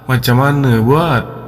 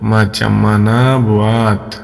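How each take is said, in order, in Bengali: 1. এটা মালয়েশিয়ানরা যেভাবে বলে ঠিক সেভাবে বলা হচ্ছে। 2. এটা বাংলাভাষী শিক্ষার্থীরা যেভাবে বলে সেভাবে বলা হচ্ছে। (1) "এইভাবে মালয়েশিয়ানরা বলে" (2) "আমাদের মতো আমরা বললে বলবো"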